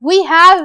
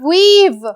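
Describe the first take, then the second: First: It is said as two full words. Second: It is said as one contracted syllable. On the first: The speaker calls it wrong. "we have नहीं" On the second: The speaker calls it right. "इसको पढ़ेंगे weave"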